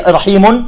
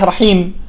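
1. الكلمة تنتهي بصوت نون. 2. الكلمة تنتهي بدون صوت نون. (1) "إن كان بالضم أو الكسر تحذف" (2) "تصبح رحيم"

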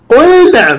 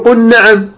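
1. تُلفظ اللام بوضوح قبل النون. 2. اللام مُدغمة في النون التي بعدها. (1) "وتظهر اللام الساكنة عند النون" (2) "لا تقول قل نعم، لا تدغمها"

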